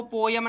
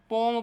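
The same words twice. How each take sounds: First: पोयम said as two syllables, po-yam, the way not to say it; wrong pronunciation poyam. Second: पोम said as one syllable, pom, rhyming with Tom; poem as pom. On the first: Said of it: "इसको पोयम नहीं पढ़ते". (पोयम को दो अक्षरों में, गलत उच्चारण की तरह) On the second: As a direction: say पोम in one short syllable, as the right reading. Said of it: "क्या पढ़ते हैं". (पोम को एक ही अक्षर में, सही उच्चारण की तरह) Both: Shown as a demonstration.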